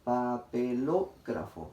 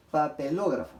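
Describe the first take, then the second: First: "Papelógrafo" slowly syllable by syllable, weight on "ló"; stress on lo. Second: Said in the usual way. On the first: Shown as a demonstration. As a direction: sound out "Papelógrafo" slowly, leaning on "ló". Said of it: "la sílaba que se ha pronunciado con mayor fuerza de voz". ("Papelógrafo" pausado, con fuerza en "ló") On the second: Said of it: "Cuál será la sílaba que se ha pronunciado con mayor fuerza de voz".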